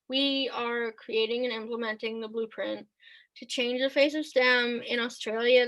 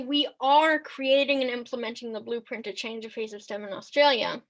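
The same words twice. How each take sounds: First: It is said flatly, without emotional emphasis. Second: It is said with lively, emotional emphasis. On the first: The speaker calls it wrong. "That is just terrible" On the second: The speaker calls it right. "the emotion in your voice and the emotion that you use to convey that sentence"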